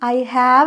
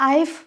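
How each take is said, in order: First: The two words are said separately in full. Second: The two words are shortened into one syllable. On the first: The speaker calls it wrong. "നമ്മളത് എടുത്ത് പറയരുത്" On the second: The speaker calls it right. "ഐഫ് ഐഫ് എന്നാണ് ഐ ഹാവ് എന്നുള്ളതിന് നമ്മൾ എപ്പോഴും ചുരുക്കി പറയാം"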